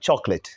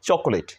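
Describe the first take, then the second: First: The word is said with two syllables. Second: The word is said with three syllables. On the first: The speaker calls it right. "This is right pronunciation of চকোলেট।" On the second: The speaker calls it wrong. "আমরা এটি কি বলি?"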